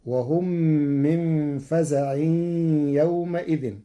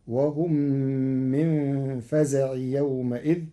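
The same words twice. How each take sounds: First: فزع nasalised at the end, "faza'in", يومئذ "yawma-idhin"; first reading with tanwin. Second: فزع joined straight on as "faza'i"; recited verse, فزع without final n before يومئذ; no tanwin. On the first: Teacher recites before Warsh's change, فزع as faza'in. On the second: Teacher shows Warsh's reading, فزع without tanwin. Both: Shown as a demonstration. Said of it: "بغير تنوين".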